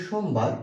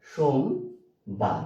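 First: Said in the usual way. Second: সোমবার broken in two, long pause after সোম; very slow, split সোমবার; syllable by syllable. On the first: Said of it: "এই শব্দটাকে কয়বার উচ্চারণ করছেন". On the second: Shown as a demonstration. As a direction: say সোমবার as two separate beats, সোম, then বার. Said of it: "সোমবার উচ্চারণ করছেন দুইবার".

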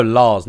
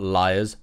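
First: LARS as one long open syllable; pronounced Lars. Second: LIARS with an "eye" glide; the wrong reading, LIARS, rhyming with "fires"; mispronounced as liars. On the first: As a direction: say LARS firmly, without the "eye" glide of liars. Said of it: "not liars". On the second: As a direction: say LIARS in two syllables, the misreading. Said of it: "no, Lars". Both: Shown as a demonstration.

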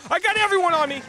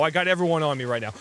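First: Much higher, loud panicked cry; panicked shout. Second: Said in the usual way. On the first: Real, not acted. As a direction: yell it in panic. Repeated while fleeing.

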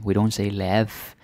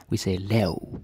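First: Lav said with a clear V, like "lev"; wrong lav. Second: Lav ending in a U sound, "lau"; correct Danish lav. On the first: Teacher demonstrating the wrong Danish lav with a V. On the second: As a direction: let the V in lav glide into U. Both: Shown as a demonstration.

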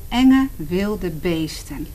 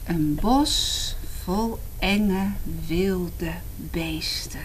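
First: "enge wilde beesten" slow and loud, leaning on "enge"; spooky slow emphasis. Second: "Een bos vol enge wilde beesten" whispered slowly; spooky whisper. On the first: Reading to children, stressing "enge wilde beesten". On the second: Reading to children, whispering the title spookily. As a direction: hush it to scare the children. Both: Shown as a demonstration.

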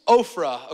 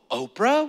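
First: Ophrah with an F sound, OFF-rah, said slowly. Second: Oprah said like the TV host, OH-prah; the wrong way, Oprah as in the talk show. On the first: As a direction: correct it slowly: Ophrah, not Oprah. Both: Shown as a demonstration. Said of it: "It's Ophrah".

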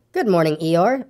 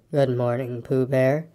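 First: Said in the usual way. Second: Low, dejected donkey voice; gloomy. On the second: A narrator's reading. Eeyore answers Pooh's greeting, low and gloomy. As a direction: return the greeting heavily and low. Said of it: "said Eeyore gloomily".

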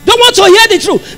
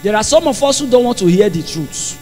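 First: Raised, high-pitched preaching; emphatic repeat. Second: Low, soft preaching remark; subdued aside. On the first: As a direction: drive it home in a higher voice. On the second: First take, dropped low. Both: Real, not acted.

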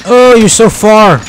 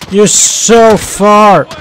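First: Slow, sing-song tease; teasing call. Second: Very slow, drawn-out taunt; stretched tease. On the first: Gamer teasing a teammate who is far away, slow tease. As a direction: tease them for lagging behind. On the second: Gamer mocking a far-off teammate, very slow drawn-out taunt. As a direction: stretch every word as a lazy taunt. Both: Real, not acted.

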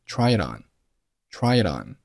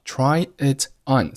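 First: "try it on" as one flowing word, t joined to on; linked "try it on". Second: Said in the usual way. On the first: Shown as a demonstration. Teacher drilling the link, "try it on" joined up. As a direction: run all three words of "try it on" together. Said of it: "三个单词连读成了try". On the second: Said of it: "三个单词连读成了".

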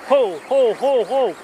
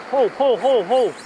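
No difference in how they are said.

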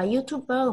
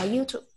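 First: YouTuber with an added "bờ" syllable at the end; Vietnamese-style pronunciation. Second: Said in the usual way. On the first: Shown as a demonstration. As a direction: say YouTuber the Vietnamese way, ending on a separate "bờ". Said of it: "không phải đọc là YouTuber". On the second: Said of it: "mà con sẽ đọc là YouTube".

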